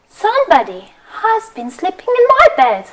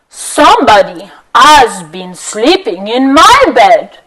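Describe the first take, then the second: First: It is said in Mama Bear's voice. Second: It is said in Papa Bear's voice.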